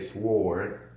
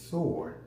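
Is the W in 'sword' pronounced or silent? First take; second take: pronounced; silent. First: The W sound is pronounced after the S. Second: The W is silent, with no W sound. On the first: "I normally say sword with the W" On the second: "she says it's sword"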